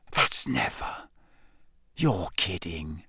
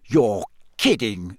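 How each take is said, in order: First: Soft and slow, lower, awed hush; whispered. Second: Slow, stunned disbelief; disbelieving. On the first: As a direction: breathe it in disbelief. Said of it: "Ron whispered". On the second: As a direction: say it like you can't believe it. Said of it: "said Ron". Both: A narrator's reading.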